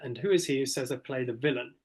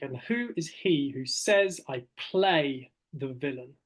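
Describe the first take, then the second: First: The stress falls on villain. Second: The stress falls on play.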